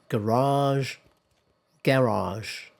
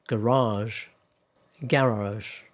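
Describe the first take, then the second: Both takes have the same delivery.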